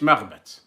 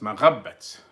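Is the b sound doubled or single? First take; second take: single; doubled. First: The b sound is short and single. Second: The b sound is held long and doubled. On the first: The speaker calls it wrong. "مش مغبت" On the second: The speaker calls it right. "دايرين لك فيها شدة فوق الباء"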